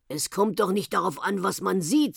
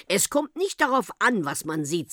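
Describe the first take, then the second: First: "sieht" lifted at the end; mild rejoinder. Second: "nicht" lifted high, then "sieht" dropping; firm rebuttal. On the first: Whale echoing the gendarme's own words, "sieht" lifted in mild rejoinder. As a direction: hand it back evenly, "sieht" rising. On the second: Gendarme answering the uncle's objection, high "nicht" in firm rebuttal. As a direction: contradict firmly, leaning on "nicht". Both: A narrator's reading.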